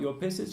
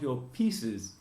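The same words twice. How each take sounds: First: The first vowel is short, like in 'shit'. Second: The first vowel is long, like in 'sheet'. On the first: The speaker calls it wrong. "You don't talk about your pieces" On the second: The speaker calls it right. "you talk about your pieces"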